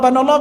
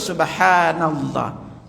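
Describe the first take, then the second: First: It is said fast and clipped short. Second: It is said slowly and in full. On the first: The speaker calls it wrong. "Yang cepat-cepat" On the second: The speaker calls it right. "kita baca pelan"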